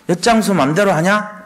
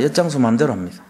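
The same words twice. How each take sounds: First: Mocking jab. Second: Said in the usual way. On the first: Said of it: "이렇게 비판합니다". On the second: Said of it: "맞습니다".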